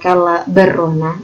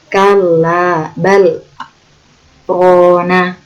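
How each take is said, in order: First: Bal runs straight into rana without a break. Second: A brief silent stop separates bal from rana. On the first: The speaker calls it wrong. "Bukan kala berrona" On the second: The speaker calls it right. "berhenti, tapi tidak ambil nafas"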